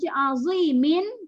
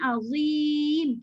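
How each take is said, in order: First: The word ends with an added short 'min' syllable. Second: The word ends cleanly on the 'm' sound. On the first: The reciter continues without stopping. "kita terus" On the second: The reciter stops at this word. "kita berhenti"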